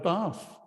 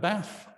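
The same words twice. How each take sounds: First: It is said in a southern English accent. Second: It is said in a northern English accent. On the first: "if you live in the southeast" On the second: "If you live in the north"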